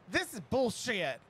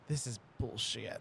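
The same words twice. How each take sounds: First: The phrase is yelled loudly. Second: The phrase is said at normal speaking volume.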